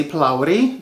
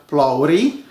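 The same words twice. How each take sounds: First: "plowery" with a clearly sounded r; "plowery" with "plow" first, then a clear "ree"; correct pronunciation. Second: "plowery" with a softened r; "plowery", easing off the r; less R sound. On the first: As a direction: say "plowery" the Indian way, r pronounced. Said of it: "the correct way". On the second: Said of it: "with less of an R, um, sound". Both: Shown as a demonstration.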